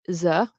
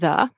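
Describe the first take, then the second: First: The word begins with a z-like sound. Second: The word begins with an English th sound. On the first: This is how French speakers say it. The speaker calls it wrong. "I hear them say like" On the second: This is the native English sound. The speaker calls it right. "instead of"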